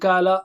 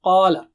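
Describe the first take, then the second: First: The first consonant is a light sound further forward. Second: The first consonant is a thick sound in between. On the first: The speaker calls it wrong. "don't say it ... kala" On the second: The speaker calls it right. "No, qala"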